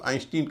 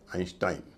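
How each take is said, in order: First: The second syllable has an 'ee' vowel. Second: The second syllable has an 'eye' vowel. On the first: The speaker calls it wrong. "कई लोग आइंस्टीन कहते हैं" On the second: The speaker calls it right. "इनका उच्चारण है आइंस्टाइन"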